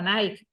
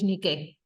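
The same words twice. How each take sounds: First: The name is pronounced the English way. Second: The name is pronounced the Greek way. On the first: The speaker calls it wrong. "lo pronuncian a la anglosajona" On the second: The speaker calls it right. "pero de Nike nada, es Nike"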